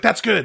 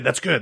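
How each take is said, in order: First: Higher friendly imitation; Tien's voice. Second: Said in the usual way. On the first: Bartender approves of quitting smoking, higher imitated voice. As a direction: lift the pitch for Tien. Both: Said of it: "that's what he sounds like".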